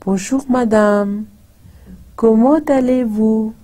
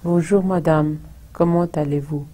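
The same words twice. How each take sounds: First: It is said with varied intonation. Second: It is said with flat intonation.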